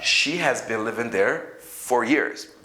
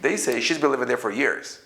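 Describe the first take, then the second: First: She has is said as two full words. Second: She has is contracted to she's. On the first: "This is this is this is the full form" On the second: "But when they speak, they say"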